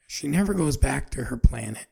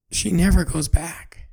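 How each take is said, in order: First: Said in the usual way. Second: Never said loud and high, slowed; stress on never. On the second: Shown as a demonstration. Storyteller stressing to listeners, never goes back. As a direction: hit the word never hard.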